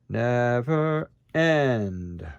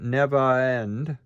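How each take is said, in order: First: A glottal stop separates the two words. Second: The two words run together without a break. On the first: The speaker calls it right. "I put a glottal stop here. ... We want never end" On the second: The speaker calls it wrong. "we don't want never end"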